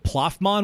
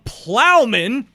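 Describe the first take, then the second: First: The name is said as Ploffman. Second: The name is said as Plowman. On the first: The speaker calls it wrong. "I went off the rails a little bit with Ploffman" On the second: The speaker calls it right. "That's it"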